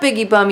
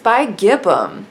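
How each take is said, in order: First: It sounds like 'biggie bum', with 'biggie' first. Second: It sounds like 'bi-gibbum', with 'gib' inside. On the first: The speaker calls it wrong. "it's not biggie bum, even though that's fun to say" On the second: The speaker calls it right. "it's bi-gibbum"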